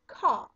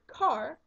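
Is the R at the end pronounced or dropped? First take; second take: dropped; pronounced. First: The final R sound is dropped. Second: The final R sound is pronounced.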